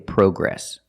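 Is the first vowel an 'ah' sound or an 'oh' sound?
oh. The first vowel is an 'oh' sound. This is the British way of saying it. The speaker calls it wrong. "We don't say progress"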